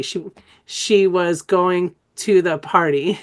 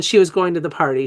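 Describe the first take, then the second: First: Very slow "she was going to the party", each word separate; drawn-out word by word. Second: Said in the usual way. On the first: Shown as a demonstration. Teacher previewing an exercise for trainees, drawn-out word by word. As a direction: stretch every word, giving "was" and "to" full vowels. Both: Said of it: "I'm gonna show you how to do that".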